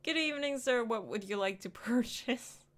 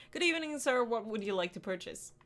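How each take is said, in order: First: High bright customer-service voice; chirpy shop greeting; polite cashier greeting. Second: Dutiful shop greeting; polite cashier greeting. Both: Shown as a demonstration. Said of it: "I'm just a miserable, tasteless cashier".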